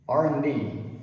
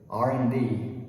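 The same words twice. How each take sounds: First: The word and is reduced to just an N. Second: The word and is said as an, no D. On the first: "reduce it all the way down to the N sound" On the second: "the D at the end of and disappears and it becomes an"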